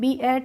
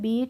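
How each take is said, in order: First: The vowel is split into two separate sounds. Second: The vowel is one long ee sound. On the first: The speaker calls it wrong. "बी एट नहीं पढ़ा" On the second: The speaker calls it right. "इसको पढ़ा है बीट"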